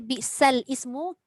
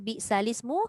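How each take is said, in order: First: The l is silent, stopping before ismu. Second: The l takes an i vowel, linking smoothly. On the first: The speaker calls it wrong. "kita dah salah lah. Lam tu tak mati. Sedangkan kita matikan sendiri" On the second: The speaker calls it right. "Bacaannya bi'salismu"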